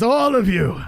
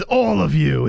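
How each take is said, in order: First: "all" of you punched higher and louder; stress on ALL. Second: Said in the usual way. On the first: Real, not acted. Streamer firing the chat insult back at viewers, stress on ALL. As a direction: hit "all" hard, higher. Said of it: "And yes". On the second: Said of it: "New York Bobby says".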